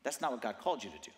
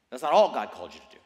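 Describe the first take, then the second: First: Said in the usual way. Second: ALL punched out loud; stress on ALL. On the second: Shown as a demonstration. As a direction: hit the word "all" hard, then drop away. Corrects himself, punching all.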